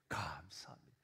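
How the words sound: It sounds calm and peaceful.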